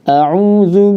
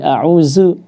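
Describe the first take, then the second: First: The middle consonant is a soft dh sound. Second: The middle consonant is a z sound. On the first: The speaker calls it right. "saya akan contohkan dulu ya" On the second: The speaker calls it wrong. "baca dengan zai"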